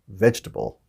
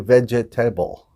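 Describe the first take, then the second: First: One syllable is dropped, squeezing the word. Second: Every syllable of the word is pronounced. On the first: The speaker calls it right. "kind of squish it together there" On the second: The speaker calls it wrong. "We don't say vegetable"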